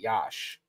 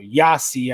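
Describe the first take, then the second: First: The name ends with an 'sh' sound. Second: The name ends with an 'ee' sound. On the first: The speaker calls it right. "I actually know how to pronounce somewhat correctly" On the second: The speaker calls it wrong. "I know a lot of people will see it and say it like that"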